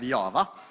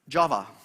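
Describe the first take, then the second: First: It is pronounced the Swedish way. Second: It is pronounced the English way.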